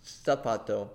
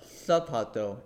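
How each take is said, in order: First: Zapato with an S sound, sah-PAH-toh; Latin American pronunciation. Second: Zapato with a TH sound, thah-PAH-toh; Spain pronunciation. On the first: Tutor shows the Latin American way to the host, S sound. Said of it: "is pronounced". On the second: Tutor shows the Spain way to the host, lisped TH. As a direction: lisp the Z in zapato like Castilian Spanish. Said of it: "in Spain". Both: Shown as a demonstration.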